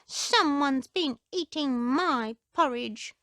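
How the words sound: It is said in a high squeak.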